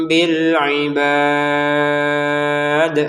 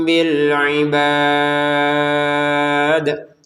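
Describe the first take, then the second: Both takes have the same delivery.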